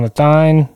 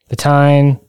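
First: "Tyne" begun with TH; TH in place of T in "Tyne". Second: "Tyne" begun with a plain T; hard T on "Tyne". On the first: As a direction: pronounce "Tyne" like "thine". Repeats two sayings of city name. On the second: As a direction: pronounce "Tyne" like "tine". Corrects to the other saying. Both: Shown as a demonstration.

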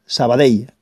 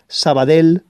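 First: Sabadell ending in a y glide, "sa-ba-dey"; falling Sabadell, finished on "dey"; correct Valencian Sabadell. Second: Sabadell ending in a plain L, "sa-ba-del"; mispronounced Sabadell. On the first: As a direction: say the final ll of Sabadell as a y. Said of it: "así es como se tiene que pronunciar". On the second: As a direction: say the final ll of Sabadell as a simple l. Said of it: "no digáis más Sabadell". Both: Shown as a demonstration.

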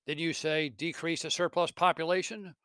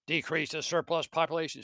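First: Mocking ghost. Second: Mocking echo. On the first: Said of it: "The spirit mocks him". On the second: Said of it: "throws back at him Scrooge's own words".

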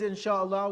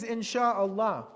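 First: Said in the usual way. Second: "Insha'Allah" drawn out slowly, each syllable given. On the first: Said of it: "we all use this phrase". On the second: Shown as a demonstration. Teacher introducing the phrase to students, slow and deliberate. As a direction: present the word "Insha'Allah" deliberately. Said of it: "This phrase".

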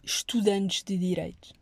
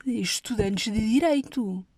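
First: Said in the usual way. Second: Estudantes de Direito, slow, with Direito stressed and falling; slow it down and land hard on Direito. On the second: Shown as a demonstration. Repeats the phrase for emphasis. (Estudantes de Direito, devagar, com ênfase em Direito)

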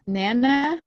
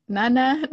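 First: "Nana" with the a of "cat", pitched up as a question; questioning pronunciation. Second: "Nana" with a broad "ah", pitched up as a question; questioning pronunciation. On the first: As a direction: say "Nana" as NAN-uh, unsure. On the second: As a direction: try "Nana" as NAH-nuh, unsure. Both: Shown as a demonstration. Trying two pronunciations of the name.

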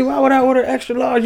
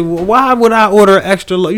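First: Even higher, squeaky falsetto complaint; hammed-up falsetto outrage; shrieking customer. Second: High, loud, outraged question; mock-offended shopper, pitched up; indignant customer. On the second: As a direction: squeal out the complaint. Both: Complaining about a wrong-size baby.

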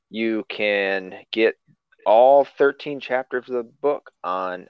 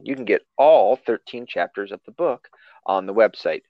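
First: Slow slurred words; stumbling slow read. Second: Said in the usual way. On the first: Real, not acted. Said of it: "I said it like a drunk person". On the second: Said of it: "I didn't say that right".

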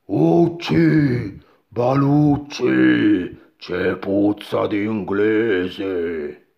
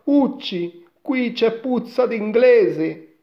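First: Slow, loud ogre voice; booming giant. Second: Put-on high, loud boy's version of the giant; boy quoting giant. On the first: Giant smells an Englishman, slow booming big voice. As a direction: boom it out, vowels long and drawn. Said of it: "un rimbombante vocione". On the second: Boy reports the giant's words to mother, high and loud. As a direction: repeat the ogre's words in a frightened boy's pitch. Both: A narrator's reading.

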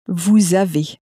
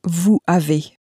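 First: Vous avez linked with a z sound, vu-zavé; vous avez with liaison. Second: Vous avez with the s of vous silent, vu-avé; vous avez without liaison. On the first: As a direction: carry the s of vous over as a z into avez. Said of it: "it was also pronounced as". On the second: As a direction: say Vous avez as two words with no z between them. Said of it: "a perfectly acceptable way to say". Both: Shown as a demonstration.

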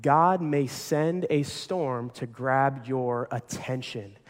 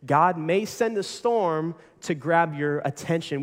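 First: Slow and weighty, word by word; slow emphatic. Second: Said in the usual way. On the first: Shown as a demonstration. Pastor stating his point slowly to the congregation. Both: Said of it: "our third point today in your notes".

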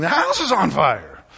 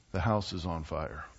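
First: High, loud panicked yell; wild banshee yell. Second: Very low, soft and level, no excitement at all; completely calm. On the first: Wife bursting in on husband, yelling like a banshee. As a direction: burst in screaming the alarm. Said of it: "come in like a wild banshee yelling". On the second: Wife calmly telling husband the house burns, flat and soft. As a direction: announce the disaster as if mentioning the weather. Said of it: "she says completely calmly, without any excitement in her voice". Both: Retold or imitated.

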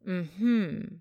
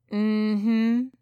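First: "Mm-hmm" rising in the middle, then falling away; a skeptical, knowing "Mm-hmm" with a falling end; knowing doubt. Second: "Mm-hmm" hummed with a steady rise; a knowing "Mm-hmm" that lifts at the end; knowing acknowledgement. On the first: Olivia responding to her self-description as talkative, knowing doubt. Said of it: "to knowing doubt". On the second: Olivia answering an ignored question about kinship, knowing acknowledgement. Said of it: "From knowing acknowledgement". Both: A narrator's reading.

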